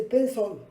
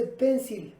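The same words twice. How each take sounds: First: Pencil said as PEN-sol, the L rounded like O; right pencil. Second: Pencil said as PEN-sil, clear English i and L; the wrong way: pencil with a crisp final -sil. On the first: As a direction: pencil with an O-coloured dark L. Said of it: "La L en inglés lleva un poquito de O". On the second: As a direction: pencil ending in a sharp "sil". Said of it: "no se dice pencil". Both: Shown as a demonstration.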